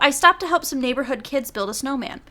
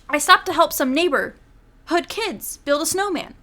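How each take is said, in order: First: Neighborhood kids gets no special emphasis. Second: Neighborhood kids gets strong, odd emphasis. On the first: The speaker calls it right. "here's how I would have delivered that" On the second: The speaker calls it wrong. "The way she inflected it, it didn't sound right"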